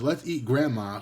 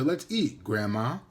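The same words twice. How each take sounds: First: It runs straight through with no pause before grandma. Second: There is a pause before grandma, addressing her.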